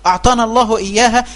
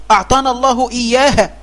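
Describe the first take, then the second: No difference in how they are said.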